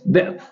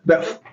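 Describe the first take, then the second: First: It is said in the speaker's own local accent. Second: It is said imitating a Western accent.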